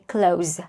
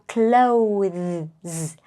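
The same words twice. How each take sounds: First: No 'th' sound is heard before the final s. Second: A 'th' sound is heard before the final s. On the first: "as a short form, you don't have to pronounce this" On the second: "we have to put our tongue between our teeth"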